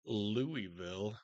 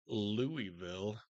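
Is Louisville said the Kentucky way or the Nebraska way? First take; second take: Kentucky; Kentucky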